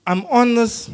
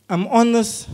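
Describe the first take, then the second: No difference in how they are said.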